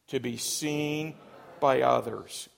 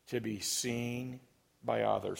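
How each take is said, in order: First: It is said forcefully, with strong conviction. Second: It is said in a plain, ordinary way. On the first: "Say it again with conviction" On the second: "Say it with me"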